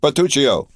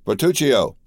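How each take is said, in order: First: Second call, higher and louder, impatient. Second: Raised call across the house, pitch up. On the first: Count calls his steward again, louder and impatient. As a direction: shout the name again, insisting now. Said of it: "cried he". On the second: Count summons his steward, calling out. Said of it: "cried he, striking a light hammer". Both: A narrator's reading.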